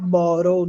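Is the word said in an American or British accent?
American. American accent, the T sounds like a quick R. "nos Estados Unidos, esse T eles falam com som de Rá"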